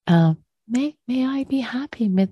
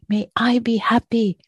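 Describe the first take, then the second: First: It is said lightly and warmly, like uplifting aspiration. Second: It is said tensely and effortfully, like forced wishing. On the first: It is a freely offered wish that uplifts the heart. The speaker calls it right. "let it be an aspiration. An aspiration that uplifts our heart" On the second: It is a contracted, effortful demand on oneself. The speaker calls it wrong. "I'm making a bit of a caricature"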